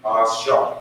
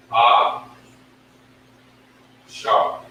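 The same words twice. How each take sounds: First: "Ah, Shar" run together smoothly; teacher blending Ah Shar; blended. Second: "Ah" then a pause then "Shar"; teacher sounding out Ah Shar; sounded out. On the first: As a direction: join the two syllables of "Ah, Shar". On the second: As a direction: break "Ah, Shar" into two beats. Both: Shown as a demonstration. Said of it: "That's how you pronounce it".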